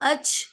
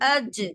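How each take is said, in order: First: The final consonant is a voiceless 'ch' sound. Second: The final consonant is a voiced 'j' sound. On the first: The speaker calls it wrong. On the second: The speaker calls it right.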